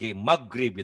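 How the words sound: The middle consonant is a hard g. The speaker calls it wrong. "Kalau orang Sunda G-nya banget-banget G"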